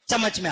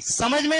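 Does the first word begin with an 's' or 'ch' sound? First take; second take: ch; s. First: The first word begins with a 'ch' sound. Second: The first word begins with an 's' sound. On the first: This is how the regional students said it. The speaker calls it wrong. "वो स को चा बोलते थे।" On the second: This is the standard pronunciation. The speaker calls it right. "समझ में नहीं"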